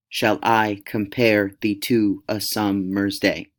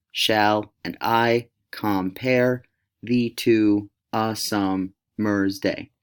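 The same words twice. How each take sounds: First: Slow sing-song "Shall I compare", every second syllable stressed; rhythmic iambic pentameter. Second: Very slow, split into two-syllable chunks with gaps; broken into syllables. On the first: Teacher showing how boring strict iambic pentameter sounds, slow and rhythmic. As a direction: plod evenly through "summer's day", weak-strong, weak-strong. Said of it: "it would sound like this".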